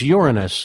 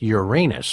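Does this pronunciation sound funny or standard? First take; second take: standard; funny. First: It is said the plain, standard way. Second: It is said the joking, funnier way. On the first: The speaker calls it right. "You know it's Uranus" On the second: The speaker calls it wrong. "original, funnier pronunciation"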